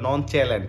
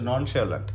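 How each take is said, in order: First: The middle consonant is a 'ch' sound. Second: The middle consonant is an 'sh' sound. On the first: The speaker calls it wrong. "অনেকে ভাবতে পারে নন চ্যালেন্ট, এরকম না" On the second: The speaker calls it right. "এটা হচ্ছে ননশোলেন্ট"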